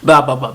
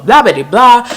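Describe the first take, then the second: First: Said in the usual way. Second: Dismissive blah. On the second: Shown as a demonstration. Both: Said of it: "I skip all that part".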